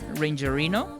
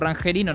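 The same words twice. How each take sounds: First: The first part is pronounced as English 'Ranger'. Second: The whole word is pronounced with Spanish sounds. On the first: "debe también tener pronunciación de Ranger" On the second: "o Rangerino nada más, como si fuese en español"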